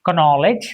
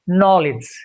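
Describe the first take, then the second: First: The initial K sound is pronounced. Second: The initial K sound is silent. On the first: The speaker calls it wrong. "It is not knowledge, that's wrong" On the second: The speaker calls it right. "So it is silent"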